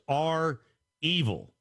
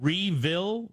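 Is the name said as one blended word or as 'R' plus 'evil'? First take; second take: R plus evil; blended word. First: It is said as letter R, then 'evil'. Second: It is said as one blended word. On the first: The speaker calls it right. "the way you pronounce it is R evil. It's R and then evil" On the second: The speaker calls it wrong. "It's Revil"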